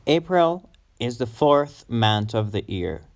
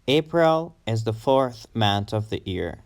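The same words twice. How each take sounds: The two takes are said the same way.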